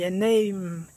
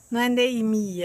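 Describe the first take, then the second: First: "name" said as nem, final m closed; right name. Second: "name" said as nemi with an extra i; wrong name. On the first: Teacher modelling the correct "name" for the class. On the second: Teacher showing the students the wrong "name". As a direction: tack a Brazilian i onto "name". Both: Shown as a demonstration.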